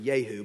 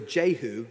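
First: The name begins with a Y sound. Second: The name begins with a J sound.

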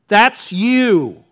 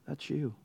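First: It is said loudly and clearly. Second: It is mumbled quietly and indistinctly. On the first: The accuser boldly confronts the king. "Speak up, man. I can't hear you" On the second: The accuser is hesitant to confront the king. "I sometimes just wonder if he just kind of mumbled it"

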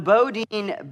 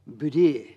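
First: The name is said the plain English way. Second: The name is said the French way. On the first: The speaker calls it wrong. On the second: The speaker calls it right.

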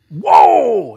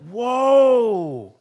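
First: It is said in an angry tone. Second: It is said in a sorrowful tone.

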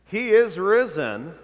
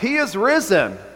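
First: It is said in a plain, ordinary way. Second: It is said with more force and emphasis.

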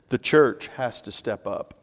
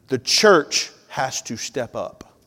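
First: It is said at normal volume. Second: It is said more loudly.

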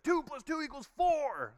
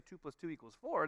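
First: It is said loudly with exaggerated energy. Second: It is said plainly in a calm voice.

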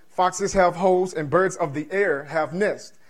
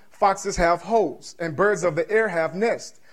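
The two takes are said the same way.

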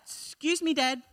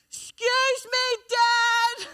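First: It is said fairly softly. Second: It is said much more loudly.

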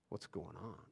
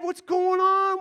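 First: It sounds wary and suspicious. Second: It sounds eager and excited, rushing in.

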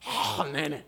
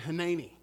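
First: The opening h sound is rough and throaty. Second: The opening h sound is light and plain. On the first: The speaker calls it right. "it'd probably have a whole lot of throat in it" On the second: The speaker calls it wrong. "I'll butcher it"

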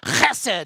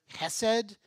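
First: It begins with a raspy sound from the throat. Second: It begins with a plain soft h sound.

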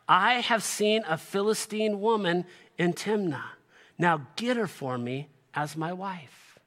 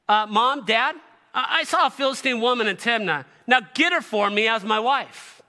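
First: It is read in a plain, neutral tone. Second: It is said in an entitled, demanding tone.

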